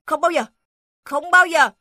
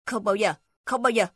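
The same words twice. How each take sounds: First: Higher, louder defiant refusal; defiant shout. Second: Said in the usual way. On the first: Acted. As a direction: refuse loyally, louder each time. Dog defies all the beasts. (tiếng chó hét lên kiên quyết)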